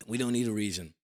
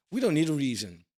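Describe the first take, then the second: First: Said in the usual way. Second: Don't pushed out louder and higher; stress on don't. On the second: Real, not acted. To viewers doubting the rally, stress on don't. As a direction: hammer the word don't to drive it home. Repeating his point to viewers.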